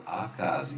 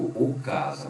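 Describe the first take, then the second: First: Said in the usual way. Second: "o casa" with the wrong masculine article o; deliberately wrong "o casa". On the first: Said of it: "mas eu digo". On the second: Shown as a demonstration. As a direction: say it as the mistake: "o casa". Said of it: "eu não digo".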